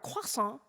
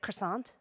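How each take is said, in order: First: Croissant is said with a French pronunciation. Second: Croissant is said with an English pronunciation. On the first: The speaker is being pretentious. The speaker calls it wrong. "those annoying people who go to the bodega and order a croissant" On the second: The speaker is an ordinary person. The speaker calls it right. "the rest of us commoners just say croissant"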